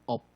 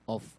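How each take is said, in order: First: The word ends without an F sound. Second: The word ends with a clear F sound. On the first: The speaker calls it wrong. "Huwag pong off" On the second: The speaker calls it right. "Mas maganda po pag off ang pag-pronounce niyo"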